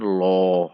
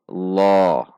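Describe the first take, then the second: First: It sounds like a W vowel glide. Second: It is a heavy L with a raised tongue. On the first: The speaker calls it wrong. "bukan lo" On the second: The speaker calls it right. "namun lo"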